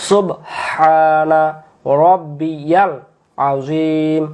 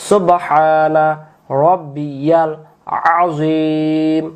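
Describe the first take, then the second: No difference in how they are said.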